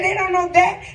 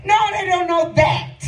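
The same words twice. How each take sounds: First: "They don't know that?" lifted as a question; puzzled question. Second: "No" hit high, falling away through "that"; firm answer. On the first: Preacher retelling his question to the Lord, puzzled. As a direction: ask it back, rising on "that". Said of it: "I said". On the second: Preacher voicing the Lord's answer, firm correction. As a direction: answer firmly, leaning on "No". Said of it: "He said". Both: Retold or imitated.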